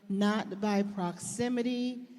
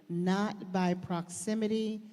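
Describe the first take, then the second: No difference in how they are said.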